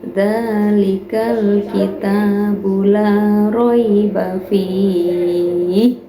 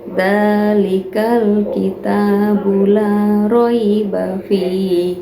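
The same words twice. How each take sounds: First: The vowel before the last sound is held moderately. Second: The vowel before the last sound is held briefly. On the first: "Yang empat harokat" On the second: "Yang dua harokat"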